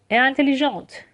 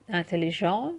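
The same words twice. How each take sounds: First: 'انتلیژانت' with a clearly released final t; higher model of 'انتلیژانت', t sounded; fully pronounced ending. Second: 'انتلیژان' ending in a nasal vowel, no t; nasal vowel closing 'انتلیژان'; silent final consonant. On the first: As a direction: hit the last t of 'انتلیژانت'. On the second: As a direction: leave the t off 'انتلیژان'. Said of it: "تلفظ نمیشه حروف پایانی". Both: Shown as a demonstration.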